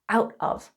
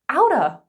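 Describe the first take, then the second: First: Both words are said fully and separately. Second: The words are blended into one reduced word.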